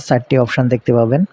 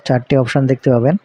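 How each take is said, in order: Both takes have the same delivery.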